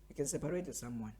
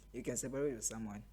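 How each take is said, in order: Both takes have the same delivery.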